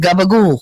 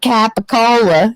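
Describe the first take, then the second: First: It is said with Italian-American dialect pronunciation. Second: It is said with standard English pronunciation. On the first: The speaker calls it right. "That's how you say it" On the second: The speaker calls it wrong. "it's not capicola"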